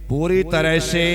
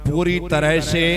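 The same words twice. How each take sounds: The two takes are said the same way.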